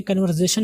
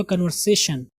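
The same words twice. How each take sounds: First: कन्वर्सेशन with a buzzing "z"; wrong pronunciation. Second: कन्वर्सेशन with a hissed "s"; correct pronunciation. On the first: Teacher rejecting the mistake, कन्वर्सेशन with "z". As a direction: say कन्वर्सेशन as "kan-var-zay-shan". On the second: Teacher correcting learners, कन्वर्सेशन with "s". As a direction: say कन्वर्सेशन as "kan-var-say-shan". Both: Shown as a demonstration. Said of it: "कन्वर्सेशन नहीं हुआ".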